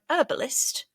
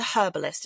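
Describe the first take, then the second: First: The word begins with a silent h. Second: The word begins with a pronounced h. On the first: The speaker calls it wrong. "it sounds so wrong saying it like that" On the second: The speaker calls it right. "It's got a her on it"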